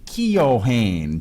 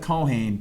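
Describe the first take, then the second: First: The name is said fully, following its spelling. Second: The name is said in its short, usual form. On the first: It helps listeners know how the name is spelled. "on the radio, I used to say Keohane, just so people would know" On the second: This is how the name really sounds. "it sounds like Cohane"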